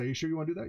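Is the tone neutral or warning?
neutral. It sounds like a plain, neutral question. The question simply checks before going ahead. "You sure want to do it? Okay, all right, let's go and do that"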